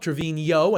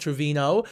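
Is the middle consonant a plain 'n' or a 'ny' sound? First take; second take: ny; n. First: The middle consonant is a 'ny' sound. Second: The middle consonant is a plain 'n' sound. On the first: The speaker calls it right. "with the N with the accent on top" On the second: The speaker calls it wrong. "and not"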